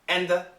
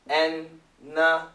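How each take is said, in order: First: The d is dropped and the th remains. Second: The d and th merge into a long n. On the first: "if we say it fast, don't worry about the D. It's gone" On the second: "if we say it really fast, so it's a long N sound"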